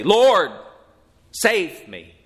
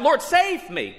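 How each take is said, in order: First: Louder, higher cry on Lord, then dropping on save me; earnest short prayer. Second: Very high shrieking plea. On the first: Shown as a demonstration. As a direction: call out Lord, then settle into a plain plea. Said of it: "The only type of prayer that a saved person can pray". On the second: A narrator's reading. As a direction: shriek it like a terrified man going under. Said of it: "he shrieks out".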